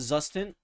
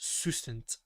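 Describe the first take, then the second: First: The word begins with a buzzing z sound. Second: The word begins with a hissing s sound. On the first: The speaker calls it wrong. "I used to call it Zustant" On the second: The speaker calls it right. "I think the correct pronunciation is Sustant"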